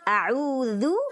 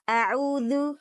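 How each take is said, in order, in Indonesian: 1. Vokal terakhir adalah u yang penuh dan membulat. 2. Vokal terakhir adalah u yang lemah dan tidak membulat. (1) "sempurnakan itmamul harokat dhammah"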